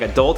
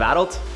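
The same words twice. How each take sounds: First: It is said with an American pronunciation. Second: It is said with a Canadian pronunciation. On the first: "like adult" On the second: "instead of adult"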